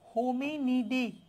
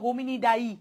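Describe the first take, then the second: First: The last syllable sounds like 'dee'. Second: The last syllable sounds like 'dye'.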